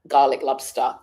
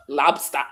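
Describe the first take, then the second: First: Said in the usual way. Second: Lobster said as "labsta", open a vowels and no final r; Jamaican accent on lobster. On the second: Shown as a demonstration. Vlogger trying a Jamaican accent on one word, lightly. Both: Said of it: "Is that me trying to do the accent?".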